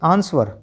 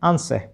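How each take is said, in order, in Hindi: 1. शब्द का अंत स्पष्ट आर की ध्वनि से होता है। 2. शब्द का अंत बिना आर की ध्वनि के होता है। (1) "आप बोले थे ऐसे" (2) "उच्चारण सही क्या है"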